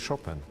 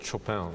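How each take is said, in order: First: The name is said the Polish way. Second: The name is said the common non-Polish way.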